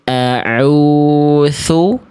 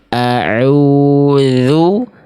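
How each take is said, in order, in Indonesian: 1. Konsonan tengahnya terdengar seperti th tak bersuara. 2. Konsonan tengahnya adalah dh bersuara biasa. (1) "yang A salahnya jadi huruf sa" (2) "Yang tepat yang B"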